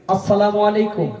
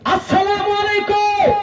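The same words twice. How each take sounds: First: The greeting is said calmly. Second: The greeting is said loudly and angrily.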